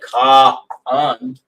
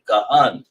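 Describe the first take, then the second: First: The two syllables are said separately, with a break. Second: The first syllable is rushed straight into the second. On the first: The speaker calls it wrong. "we don't say ka hun" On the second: The speaker calls it right. "say kahun. That's another way of saying that ka is real fast"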